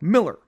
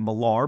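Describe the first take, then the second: First: The second syllable is a weak 'er' sound. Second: The second syllable is pronounced with a full 'ar'. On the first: The speaker calls it right. "but Mark Millar, Mark Miller" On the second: The speaker calls it wrong. "You may mispronounce it as I did for so long"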